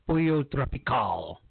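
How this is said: It is said with a Spanish accent.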